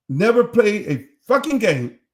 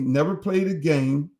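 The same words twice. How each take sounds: First: "fucking" hit hard and louder; emphatic repeat. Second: Said in the usual way. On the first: Real, not acted. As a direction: lean on "fucking" to drive the point home.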